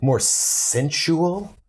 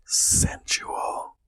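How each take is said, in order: First: Drawn-out, slow seductive read; slow and sensual. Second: Whispered seductive Sensual; breathy whisper. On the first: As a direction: stretch it out, very slowly. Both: Shown as a demonstration.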